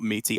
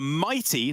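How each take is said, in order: First: The first vowel sounds like 'ee'. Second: The first vowel sounds like 'eye'. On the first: The speaker calls it wrong. "not Meaty, apologies" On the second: The speaker calls it right. "for Mighty"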